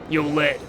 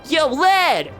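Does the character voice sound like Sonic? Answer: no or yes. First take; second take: no; yes. First: The put-on voice sounds nothing like Sonic. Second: The put-on voice sounds rather like Sonic. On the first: The speaker calls it right. "That's better. This one doesn't sound even slightly like Sonic" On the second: The speaker calls it wrong. "sorta close to Sonic!"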